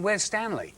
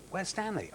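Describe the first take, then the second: First: Indignant question. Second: Quiet question. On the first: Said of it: "I went". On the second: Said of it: "They went". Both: Retold or imitated.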